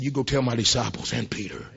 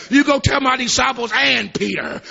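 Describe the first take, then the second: First: Said in the usual way. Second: Higher, louder preaching take; shouted sermon line; preached. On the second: Shown as a demonstration. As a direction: proclaim it to the congregation.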